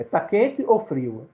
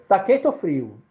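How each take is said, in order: First: Drawn-out, slow "Tá quente ou frio?" with a long "ou"; slow title read. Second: Said in the usual way. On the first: Shown as a demonstration. Teacher introducing the poem title to the class, slow and drawn out. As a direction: stretch "Tá quente ou frio?" slowly, like calling out in the children's game. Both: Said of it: "brincadeira do tempo da gente de criança".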